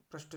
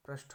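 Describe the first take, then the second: First: पृष्ठ ending in unaspirated ट; wrong pronunciation. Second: पृष्ठ ending in aspirated ठ; correct pronunciation. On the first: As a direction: say पृष्ठ as "prisht", no puff. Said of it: "नहीं होता". (पृष्ठ के अंत में ट बोलें) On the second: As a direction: say पृष्ठ as "prishth", with a puff. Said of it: "होता है". (पृष्ठ के अंत में महाप्राण ठ बोलें) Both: Shown as a demonstration.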